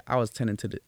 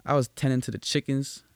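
First: Quick, half-hearted Western accent attempt; badly faked Southern accent, rattled off fast; failed Southern accent. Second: Slightly Western-twanged telling; attempted Southern accent. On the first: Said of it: "I'm trying to do a, a Western accent, Southern accent". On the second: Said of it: "I don't know why I said it like that". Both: Shown as a demonstration.

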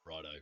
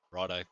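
First: Plain, easy "Righto"; unbothered righto. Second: Low, soft, easy "Righto", no sweat at all; unbothered righto. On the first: Pilot calmly acknowledging the call again, relaxed. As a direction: say "Righto" like it's nothing. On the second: Pilot shrugging off the caller's pizza explanation, lower and softer. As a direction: say "Righto" lower and quieter, totally unfazed. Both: Retold or imitated. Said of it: "no sweat, no anxiousness".

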